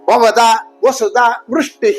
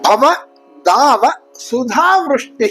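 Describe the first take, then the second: First: Breaks fall after bhavada and after vasudha. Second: Breaks fall after bhava and after dava. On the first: The speaker calls it wrong. "ಅಂತ ಹೇಳಬಾರ್ದು" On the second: The speaker calls it right. "ಇದನ್ನ ಸರಿಯಾಗಿ ಹೇಳ್ಬೇಕು"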